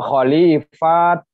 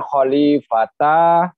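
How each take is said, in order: First: The word ends with a clipped t sound. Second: The word ends with a full ta syllable. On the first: "atau khalifat, bukan begitu" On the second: "bukan khalifata"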